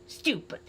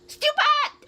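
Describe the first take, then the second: First: It sounds scornful but not angry. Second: It sounds very angry.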